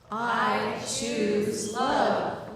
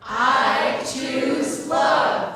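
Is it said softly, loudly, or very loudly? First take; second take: softly; loudly. First: It is said at a moderate volume. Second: It is said noticeably louder.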